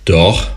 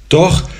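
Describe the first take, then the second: First: Said in the usual way. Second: Flustered, higher startled yes; stammering. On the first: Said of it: "sagte sie". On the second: A narrator's reading. Paul, caught staring, blurts a flustered yes. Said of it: "stotterte er".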